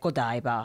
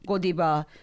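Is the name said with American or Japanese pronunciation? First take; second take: American; Japanese. First: It is said with American English pronunciation. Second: It is said with Japanese katakana-style pronunciation. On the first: The speaker calls it right. "you should say like Godiva" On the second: The speaker calls it wrong. "if Japanese people ... talking about"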